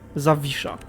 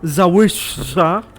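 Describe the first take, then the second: First: The w is said like a v. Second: The w is said like an English w. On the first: The speaker calls it right. "imagine this sign, W as a V, and that's basically how you pronounce it" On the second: The speaker calls it wrong. "it's not Zawisha"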